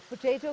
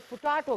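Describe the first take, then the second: First: पोटैटो with a long 'ay' middle vowel; पोटैटो, middle syllable rhyming with 'day'. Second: पोटैटो with a long 'ah' middle vowel; पोटैटो, middle syllable rhyming with 'ta'. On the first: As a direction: say पोटैटो as puh-TAY-to. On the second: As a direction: say पोटैटो as puh-TAH-to. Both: Shown as a demonstration. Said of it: "कुछ लोग पोटैटो कहते हैं".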